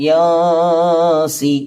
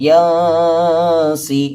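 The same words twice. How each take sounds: No difference in how they are said.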